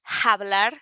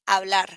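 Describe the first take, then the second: First: The word begins with an audible h sound. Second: The word begins directly with the vowel sound. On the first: The speaker calls it wrong. "you don't have to pronounce this like hablar, something like that" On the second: The speaker calls it right. "It's just like hablar. It's right there, but you won't pronounce it"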